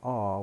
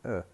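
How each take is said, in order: First: The word has a full, strong vowel. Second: The word is reduced to a schwa. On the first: The speaker calls it wrong. "We don't say are" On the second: The speaker calls it right. "we say uh"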